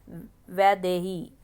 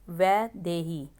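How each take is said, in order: Both takes have the same delivery.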